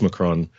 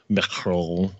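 First: The name is said with a plain English pronunciation. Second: The name is said with a fancy French-like pronunciation. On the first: "That's how I say it" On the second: "I was trying to be fancy there"

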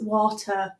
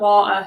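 First: It is said in a posh accent. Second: It is said in a Yorkshire accent. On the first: Someone else corrected the speaker this way. "She's like, is it water? Like she would literally correct me" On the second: This is how the speaker normally talks. "so I say like water"

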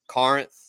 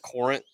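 First: The first syllable sounds like 'car'. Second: The first syllable does not sound like 'car'. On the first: The speaker calls it right. "make sure they know that it's pronounced Corinth" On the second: The speaker calls it wrong. "not Corinth"

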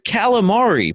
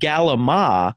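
First: It starts with a k sound and ends in i. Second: It starts with a g sound, final i dropped. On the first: "it's calamari" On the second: "They take off the I, and they pronounce it galama"

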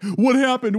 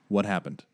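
First: It is said in a panicked way. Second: It is said in a calm way.

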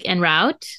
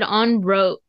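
First: The first syllable sounds like 'en'. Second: The first syllable sounds like 'on'. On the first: "I'm pretty sure I say like en route" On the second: "You said on route"

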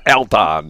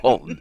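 First: The name is said the outsider way. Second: The name is said the local way. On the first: The speaker calls it wrong. "It's not Alton" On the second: The speaker calls it right. "It's Alton"

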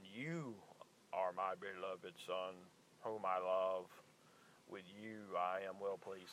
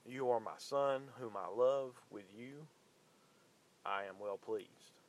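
First: It is said in a put-on deep voice. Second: It is said in his normal voice.

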